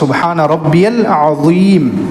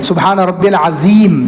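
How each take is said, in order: First: The z sound is soft, tongue against the teeth. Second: The z sound in azeem is hard and harsh. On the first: The intended meaning is kept. The speaker calls it right. "नरमी से पढ़ना है" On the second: The meaning changes and the prayer may be spoiled. The speaker calls it wrong. "सख्ती के साथ"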